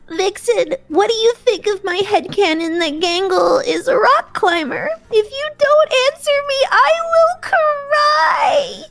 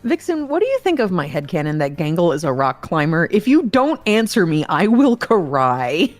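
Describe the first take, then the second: First: It is said in Gangle's put-on character voice. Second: It is said in the speaker's normal voice.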